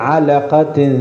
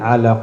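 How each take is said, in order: First: The word ends with an added -tin sound. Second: The word ends bare, with no nasal ending. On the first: The recitation continues without stopping. "നിർത്താതെ ഓതുകയാണെങ്കിൽ" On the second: The recitation stops here. "നിർത്തുകയാണെങ്കിൽ"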